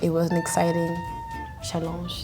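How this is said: It is said with a French accent. "Or if it was French"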